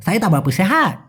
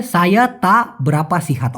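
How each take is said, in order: First: "তাবরা পাশে" run together; slang pronunciation. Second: Slow "সায়া তা বেরাপা সিহাত", word by word; clear pronunciation. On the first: Teacher showing the difference, slurred slang version. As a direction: swallow syllables in "সাইয়ে তাবরা", stretch "হাট". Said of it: "পার্থক্যটা বুঝতে পেরেছেন?". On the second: Teacher giving the careful reply, slow and clear. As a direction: separate "তা" from "বেরাপা" and sound both fully. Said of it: "স্পষ্ট হবে". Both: Shown as a demonstration.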